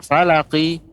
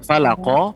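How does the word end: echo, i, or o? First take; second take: i; o. First: It ends with a full i vowel. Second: It ends with a full o vowel. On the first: "juga bukan falaqi" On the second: "juga bukan falaqo"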